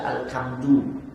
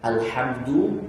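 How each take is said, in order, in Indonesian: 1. Konsonan setelah 'al' adalah bunyi k. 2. Konsonan setelah 'al' adalah h tenggorokan. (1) "Kenapa dirubah jadi kaf?" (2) "alhamdu dengan ha"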